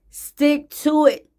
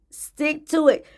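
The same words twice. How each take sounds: First: Slow, deliberate "Stick to it" with "to" leaned on; slow emphatic. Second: Said in the usual way. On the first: Shown as a demonstration. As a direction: stick to it said slowly with weight on "to". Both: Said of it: "coaching repeat".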